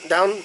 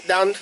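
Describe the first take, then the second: The two takes are said the same way.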